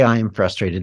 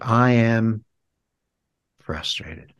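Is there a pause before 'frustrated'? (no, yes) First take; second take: no; yes. First: It runs straight through with 'frustrated' stressed. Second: It pauses before a softened 'frustrated'. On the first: The focus is on the feeling of frustration. The speaker calls it wrong. "the dominant concept there is frustrated" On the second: The focus is on 'I am' rather than the feeling. The speaker calls it right. "we soften it, or we pause before it"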